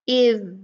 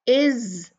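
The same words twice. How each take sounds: First: It ends in a voiced th sound. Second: It ends in a buzzing z sound. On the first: The speaker calls it right. "जुबान की नोक को सामने के ऊपर नीचे के दो दांतों के बीच में रखें" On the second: The speaker calls it wrong. "ये जो है ना ज़े होता है"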